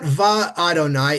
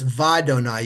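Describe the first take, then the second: First: The two parts are said as separate words. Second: The two parts are slurred into one word. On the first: The speaker calls it wrong. "it's not va Adonai" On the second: The speaker calls it right. "You slur it together"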